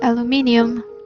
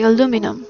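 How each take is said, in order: First: It is said the British way. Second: It is said the American way. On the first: "in the style of English language, because uh, they say aluminium" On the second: "the Americans say aluminum"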